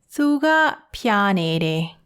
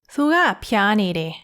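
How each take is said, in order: First: It is said more slowly. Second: It is said at normal speed.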